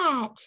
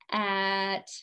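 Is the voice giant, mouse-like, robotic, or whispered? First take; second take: mouse-like; robotic. First: It is said in a tiny squeaky voice. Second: It is said in a flat robot voice. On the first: "our tiny little mouse squeaky voice" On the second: "let's say it in our robot voice"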